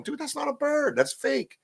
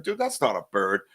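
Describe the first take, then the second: First: High-pitched disbelief. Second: Said in the usual way. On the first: Retold or imitated. To his friend Wojo about the whistling, high incredulous. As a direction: voice jumps way up, incredulous. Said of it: "you can hear me on the video going". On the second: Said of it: "I said".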